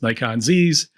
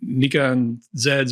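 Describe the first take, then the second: First: Z is said as zee, American style. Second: Z is said as zed.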